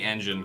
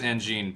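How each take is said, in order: First: The name sounds like the word engine. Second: The name does not sound like engine. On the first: The speaker calls it right. "it's absolutely Anjin because it's a play on engine" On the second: The speaker calls it wrong. "I always pronounce it as Anjean"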